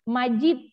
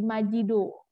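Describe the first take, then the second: First: The name ends in a 'd' sound. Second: The name ends with an added 'o' sound.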